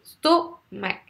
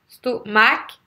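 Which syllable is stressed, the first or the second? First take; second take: first; second. First: The stress is on the first syllable. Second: The stress is on the second syllable. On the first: The speaker calls it right. "Vous entendez, c'est stomac. J'insiste exprès" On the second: The speaker calls it wrong. "Si vous faites l'inverse, si vous faites stomac"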